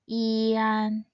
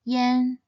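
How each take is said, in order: First: The final is said as separate i-an sounds. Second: The final is said like the word yen. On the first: The speaker calls it wrong. "this compound final is not pronounced as ian" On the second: The speaker calls it right. "it should be pronounced as yen"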